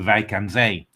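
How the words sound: The name is said with Dutch pronunciation. "when I learned Dutch ... I went to"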